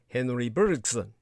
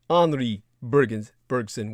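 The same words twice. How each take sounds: First: The name is said with English sounds. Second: The name is said with French sounds.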